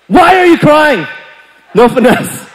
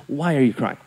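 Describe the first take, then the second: First: High, loud, blunt demand; bursting in and yelling, no finesse; exasperated raised-voice question; yelling older brother. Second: Very soft, low question; hushed, softened approach; voice brought down. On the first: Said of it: "I'm yelling at her". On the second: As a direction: ask it gently and low. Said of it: "Just bring down my voice". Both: Retold or imitated.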